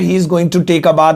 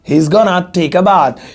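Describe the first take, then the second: First: The words 'going to' are said in full. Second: The words 'going to' are reduced to 'gonna'.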